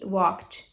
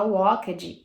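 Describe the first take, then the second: First: "walked" as one syllable ending in T; correct ED pronunciation. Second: "walked" in two syllables, walk-ed; mispronounced ED. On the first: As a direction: say "walked" as "wokt". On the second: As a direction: say "walked" wrongly, sounding out the ED. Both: Shown as a demonstration. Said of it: "Olha a diferença".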